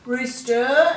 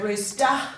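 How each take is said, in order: First: The ending is a clearly pronounced 'er' sound. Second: The ending is reduced to a weak schwa. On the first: The speaker calls it right. "if we say it correctly, you can hear the er" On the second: The speaker calls it wrong. "If you don't, if you say rooster"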